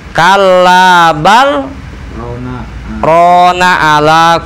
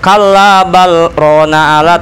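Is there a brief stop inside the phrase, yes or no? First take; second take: yes; no. First: There is a brief stop without taking breath. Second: The words run together without any stop. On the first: The speaker calls it right. "ada berhenti sebentar ya. Iya, tapi tanpa bernapas" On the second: The speaker calls it wrong. "tanpa ada sakta pasti bakal dibenerin"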